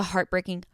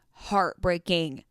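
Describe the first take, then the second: First: Said in the usual way. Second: "heartbreaking" stretched out slowly; drawn-out emphasis. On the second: Real, not acted. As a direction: linger on each part of "heartbreaking". Repeats the word for emphasis.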